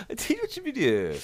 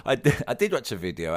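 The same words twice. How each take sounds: First: Very high-pitched silly voice. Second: Said in the usual way. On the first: Pretend. Answering co-host's teasing video question, in a silly voice. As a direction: squeak it out in a daft high voice.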